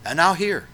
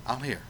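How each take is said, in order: First: Higher and louder, a firm promise; loud assuring declaration; emphatic promise. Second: Much softer, a gentle echo; quiet reassuring repeat. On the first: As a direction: proclaim it with certainty. God promises to listen. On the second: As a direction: let it fall to a tender hush. Soft echo of the promise. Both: Acted.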